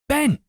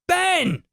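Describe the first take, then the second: First: It is said somewhat louder, moderately. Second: It is bellowed very loudly.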